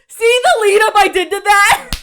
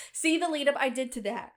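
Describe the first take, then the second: First: High, loud, gleeful boast about the setup; hammed-up gloating. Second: Said in the usual way. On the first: Bragging to viewers about the joke setup, loud and high. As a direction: crow over the setup like a prankster.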